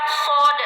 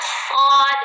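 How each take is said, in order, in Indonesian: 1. Bunyi ini dibuat dengan bibir didorong ke depan. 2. Bunyi ini dibuat dengan bibir tidak dimonyongkan, rileks. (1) "bukan sod" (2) "dibacanya sod"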